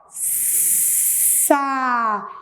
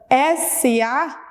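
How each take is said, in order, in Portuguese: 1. Um s sibilante se funde com a vogal. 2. Cada letra é dita pelo seu nome separado. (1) "o S tem um som que é um vento" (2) "fica S A, não fica Sa"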